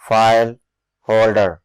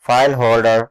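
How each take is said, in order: First: "file", a clear pause, then "holder"; word by word. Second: Said in the usual way. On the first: Shown as a demonstration. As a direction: split "file holder" into two separate words. Teacher splits term word by word.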